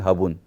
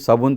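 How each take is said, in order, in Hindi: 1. शब्द की शुरुआत h ध्वनि से होती है। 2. शब्द की शुरुआत s ध्वनि से होती है। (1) "वो स को खा जाते हैं, स उच्चारण नहीं करते" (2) "आप बोलोगे कि साबुन"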